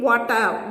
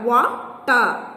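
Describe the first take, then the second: First: Said in the usual way. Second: "water" split as wa, ter; syllable by syllable. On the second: Shown as a demonstration. Teacher showing two syllables in a word, "water" broken up. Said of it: "there are two syllables in water".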